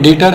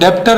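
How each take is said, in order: First: No b or p sound is heard mid-word. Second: A b or p sound is heard mid-word. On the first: The speaker calls it right. "यहाँ B silent होता है, ये डेटर है" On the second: The speaker calls it wrong. "इसको डेप्टर नहीं बोलते हैं"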